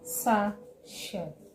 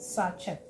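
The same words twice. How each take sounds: First: The T sound is left out. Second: The T sound is clearly pronounced. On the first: The speaker calls it right. "The T is not heard in this word" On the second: The speaker calls it wrong. "and not sachet"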